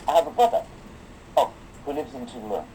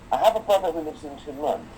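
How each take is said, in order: First: There is a break after brother. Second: It runs on without a pause after brother.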